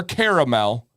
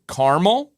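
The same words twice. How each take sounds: First: Caramel said as KEHR-uh-mel, three syllables; caramel drawn out in three syllables, KEHR-uh-mel; caramel, care-a-mel. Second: Caramel said as KAR-mul, two syllables; Caramel clipped to two syllables, KAR-mul; caramel, car-mel. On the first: Host offers the chat the three-syllable way. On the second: Host offers the chat the two-syllable way. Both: Shown as a demonstration. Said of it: "What is the correct way?".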